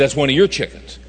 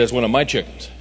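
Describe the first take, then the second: First: "your" pressed in mild disbelief; stress on your. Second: "my" pressed, the owner's claim; stress on my. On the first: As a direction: hit "your" as the surprised buyer. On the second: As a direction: lean on "my" as the farmer. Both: Retold or imitated. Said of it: "He said".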